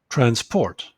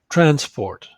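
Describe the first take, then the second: First: The stress is on the second syllable. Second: The stress is on the first syllable. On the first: It is used as a verb. "if it's a verb, the stress is on the second syllable" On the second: It is used as a noun. "if it's a noun, the stress is on the first syllable"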